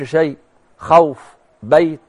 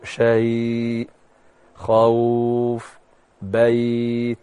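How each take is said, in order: First: The soft vowel sounds are cut off abruptly. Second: The soft vowel sounds are softly drawn out. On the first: The speaker calls it wrong. "ما تقولش شيء خوف بيت تخبطها كده" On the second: The speaker calls it right. "لين الحرف اسمه مد لين"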